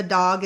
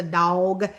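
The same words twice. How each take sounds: First: Said in the usual way. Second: "dog" with a Southern gliding vowel, like "dawg"; Southern Indiana "dog", rounded drawn vowel; Southern accent. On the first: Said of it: "Instead of a dog, it's a dog". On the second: Shown as a demonstration. Showing how locals say "dog", Southern accent. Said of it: "there's a lot of words like that".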